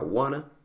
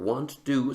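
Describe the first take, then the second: First: It is said as one contracted blended word. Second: It is said as two separate full words. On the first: "se contrae a wanna" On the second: "want to se contrae"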